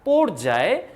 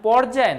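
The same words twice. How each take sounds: First: The first vowel is a closed 'oh' sound. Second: The first vowel is an open 'aw' sound. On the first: The speaker calls it right. "উচ্চারণ কিন্তু হবে স্বরে ওকার" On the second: The speaker calls it wrong. "অকারের মতো উচ্চারণটা হবে না"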